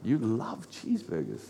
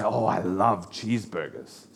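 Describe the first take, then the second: First: Low, very soft puzzled question; mild mock disbelief. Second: Low, soft mock gushing; retold food lover. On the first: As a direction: question it quietly, as if baffled. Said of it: "And I'm like". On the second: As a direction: quote a cheeseburger fan in an understated, low murmur. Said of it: "someone will say".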